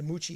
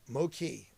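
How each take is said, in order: First: The first syllable sounds like 'moo'. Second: The first syllable sounds like 'mow'. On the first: The speaker calls it wrong. "The Moochie sounded much better" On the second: The speaker calls it right. "Mow the lawn"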